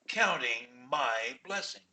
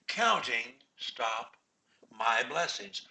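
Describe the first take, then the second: First: There is no pause after 'counting'. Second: There is a pause after 'counting'. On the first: "Or I can say, counting my blessings, stop" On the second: "Counting, stop"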